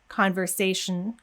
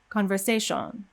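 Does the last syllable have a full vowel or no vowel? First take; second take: no vowel; full vowel. First: The sh sound runs straight into the n. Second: A strong O vowel sits between sh and n. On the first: The speaker calls it right. "where we should go straight from the sh into the n" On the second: The speaker calls it wrong. "more of an O sound"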